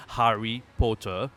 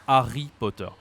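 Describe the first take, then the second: First: "Harry Potter" with the h sounded; English h. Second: "Harry Potter" without h, French r; French pronunciation. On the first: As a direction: carefully say "Harry Potter" opening on h. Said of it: "difficult to say words like". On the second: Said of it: "and we say". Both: Shown as a demonstration.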